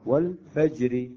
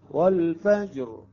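First: والفجر said slowly with a thin, light ra; ترقيق الراء. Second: والفجر said slowly with a heavy, full ra in the pause; تفخيم الراء عند الوقف. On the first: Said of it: "الراء مكسورة". (راء والفجر مرققة) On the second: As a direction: make the ra in والفجر heavy at the stop. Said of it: "الراء تفخم". (راء والفجر مفخمة عند الوقف) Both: Shown as a demonstration.

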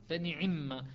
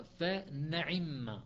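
First: فنعم said with kasra on the ain, nun and ain both kasra; kasra reading. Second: فنعم said very slowly, the mim's vowel moved back onto the ain; vowel-shifted reading. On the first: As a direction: demo فنعم with the ain following the nun's kasra. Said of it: "فيقول". («فنعم» بكسر العين إتباعًا لكسرة النون) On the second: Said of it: "لو نقل حركة الميم فيقرأ". («فنعم» بنقل حركة الميم إلى العين ببطء شديد) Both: Shown as a demonstration.

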